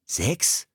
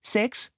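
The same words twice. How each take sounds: First: "Sechs?" with a rising, disbelieving lift; can't believe he's "Sechs"; an incredulous "Sechs?" rising at the end; surprised exclaim. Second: Put-on a much higher small boy's voice, proud; "Sechs" in a bright, high little boy's voice. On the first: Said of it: "rief Philipp". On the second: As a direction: say "Sechs" like a proud six-year-old. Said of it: "sagte der kleine Junge". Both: A narrator's reading.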